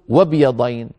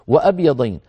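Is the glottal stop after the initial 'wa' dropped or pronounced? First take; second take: dropped; pronounced. First: The glottal stop after 'wa' is dropped entirely. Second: A glottal stop is heard after the initial 'wa'. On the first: The speaker calls it wrong. "لا نقول وبيضين" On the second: The speaker calls it right. "لو وضعنا قبلها واو ماذا نقول؟"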